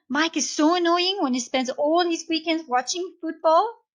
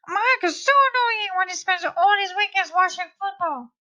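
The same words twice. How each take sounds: First: It is said in the speaker's normal voice. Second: It is said in a high-pitched Donald Duck voice.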